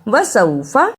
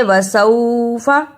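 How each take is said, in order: First: "वसौफा" with सौ short, not held; brief diphthong in the middle of "वसौफा"; quick soft glide. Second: "वसौफा" with सौ wrongly drawn out; lengthened, lingering middle syllable in "वसौफा"; overstretched sau. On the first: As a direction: pass quickly through सौ in "वसौफा". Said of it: "इसे जल्दी पढ़ते हैं". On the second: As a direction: drag the vowel of सौ in "वसौफा". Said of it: "इसे वसौफा ऐसे नहीं पढ़ना". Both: Shown as a demonstration.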